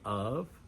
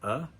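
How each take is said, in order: First: The word is said fully with a clear v. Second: The word is reduced to a short uh sound. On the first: "we don't really say of" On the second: "we say uh"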